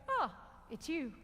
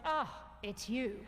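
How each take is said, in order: First: It sounds somewhat pleased but calmer. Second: It sounds flat with little excitement. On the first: The pair are getting used to each other. "You're getting a bit more used to each other" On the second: The pair have grown too familiar. "eventually you get to the point"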